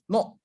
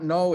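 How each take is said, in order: First: The vowel is short and pure. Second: The vowel is long and glides. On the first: The speaker calls it right. "it's shorter when you say oh" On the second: The speaker calls it wrong. "So it's not no"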